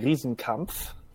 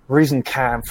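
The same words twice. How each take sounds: First: The name is said with German pronunciation. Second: The name is said with American pronunciation.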